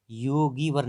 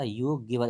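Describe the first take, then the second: First: योगिवर with a long stretched "gee", as योगीवर; wrong form. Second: योगिवर with a short "gi" in the middle; correct short vowel. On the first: Teacher showing the misspelling, long-vowel wrong form. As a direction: lengthen the middle vowel of योगिवर to "ee". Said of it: "नहीं होता". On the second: Teacher correcting the vowel, short-vowel right form. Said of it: "इधर छोटी की मात्रा चलेगी". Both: Shown as a demonstration.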